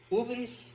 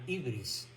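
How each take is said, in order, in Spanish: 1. La primera vocal suena como 'oo'. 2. La primera vocal suena como 'ee'. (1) "Se pronuncia con U" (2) "otros la llaman ibris"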